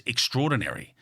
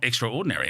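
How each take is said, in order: First: Said in the usual way. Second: "extraordinary" as two words, extra and ordinary; split into two words. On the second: Shown as a demonstration. Contrasts two readings of the word.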